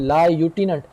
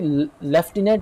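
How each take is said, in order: First: It begins with a 'loo' sound, no f. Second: It begins with a 'lef' sound with f. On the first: "हालांकि लायूटिनेंट" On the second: "इसको आप pronounce भी लेफ्टिनेंट करेंगे"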